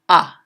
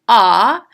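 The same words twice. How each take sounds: First: The vowel is shorter with less emphasis. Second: The vowel is full and fully stressed. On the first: "you would give it less emphasis, like ah" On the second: "instead of saying ah"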